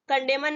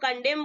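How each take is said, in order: First: The final n is pronounced. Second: The final n is silent. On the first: The speaker calls it wrong. "कंडेमन नहीं बोलेंगे" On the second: The speaker calls it right. "इसको कंडेम बोलेंगे"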